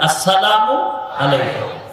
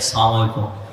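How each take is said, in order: First: Every syllable is pronounced, as two separate words. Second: The opening syllable is dropped and words run together. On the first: It wishes peace on the listener. The speaker calls it right. "শব্দ দুইটা" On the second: It wishes a curse on the listener. The speaker calls it wrong. "সালামালাইকুম মানে আল্লাহর গজব"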